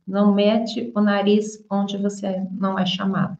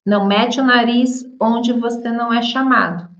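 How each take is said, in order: First: Said in the usual way. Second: Nariz stressed with a falling tune, a touch higher; emphatic example phrase. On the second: Shown as a demonstration. Teacher acts out a scolding for learners, stressing nariz. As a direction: lean on nariz like a scolding warning. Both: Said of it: "Então, nós falamos".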